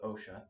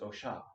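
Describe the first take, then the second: First: The word is given its everyday, casual pronunciation. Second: The word is given its careful, precise pronunciation. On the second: "if you want to pronounce it correctly"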